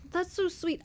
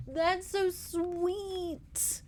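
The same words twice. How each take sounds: First: Shorter high-pitched gush; quick high gush. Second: Slow, high drawn-out swoon; swooning coo. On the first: Vlogger gushing again about the romance, quick high gush. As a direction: repeat it bright and fast. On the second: Vlogger swooning over an old couple's romance, slow high coo. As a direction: melt over the sweet romance. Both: Real, not acted.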